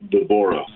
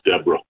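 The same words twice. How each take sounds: First: The name has a Hebrew pronunciation. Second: The name has an English pronunciation. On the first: This is the original form of the name. "Somebody is named Deborah" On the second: This is the translated form of the name. "usually translated into English as Deborah"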